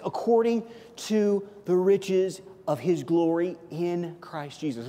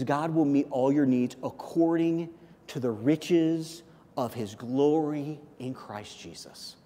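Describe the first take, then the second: First: Slow reading that punches "According"; stress on According. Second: Slow full verse reading. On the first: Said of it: "Paul doesn't stop there". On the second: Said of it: "look at the entirety of the verse". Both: Shown as a demonstration.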